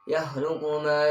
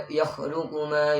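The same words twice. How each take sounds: Both takes have the same delivery.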